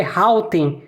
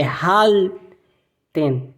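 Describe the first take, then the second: First: "halten" with the L turned into a W, like "hauten"; wrong unrolled L. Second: "halten" very slow, the L held with curled tongue; rolled German L. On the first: Teacher showing learners what to avoid, vowel-like L. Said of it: "não é halten". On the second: Teacher correcting the learners' halten, rolled L. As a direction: stretch "halten" on a clear, curled L. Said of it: "você enrola a língua". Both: Shown as a demonstration.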